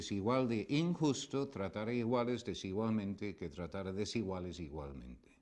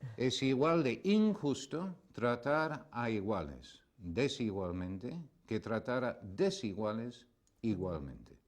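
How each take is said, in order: First: It is said at normal speed. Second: It is said more slowly.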